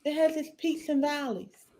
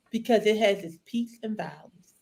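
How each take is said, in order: First: Choked up, softer. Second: Said in the usual way. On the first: Real, not acted. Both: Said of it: "I'm just all choked up".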